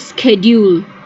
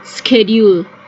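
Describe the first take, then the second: First: The word begins with a sk sound. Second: The same.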